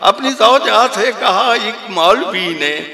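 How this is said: It is said in an imitated cleric's manner.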